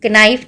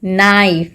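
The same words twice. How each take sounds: First: कनाइफ with the k sounded before the n; कनाइफ said with a clear "k" before "naif"; wrong pronunciation. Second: नाइफ with a silent k, no k sound at all; नाइफ said as "naif" without any k sound; correct pronunciation. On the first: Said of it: "के की तो आवाज़ ही नहीं आ रही है". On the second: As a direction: say नाइफ starting straight on the n. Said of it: "लेकिन हम इसको कैसे प्रोनाउंस करते हैं". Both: Shown as a demonstration.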